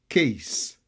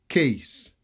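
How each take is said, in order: Both takes have the same delivery.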